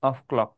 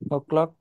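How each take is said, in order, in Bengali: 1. প্রথম শব্দটি 'f' সহ পূর্ণভাবে বলা হয়েছে। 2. প্রথম শব্দটি শুধু একটি স্বরধ্বনিতে সংক্ষিপ্ত করা হয়েছে। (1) "অফ ক্লকও বলতে পারি" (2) "অফ কে সংক্ষেপে ও বলি"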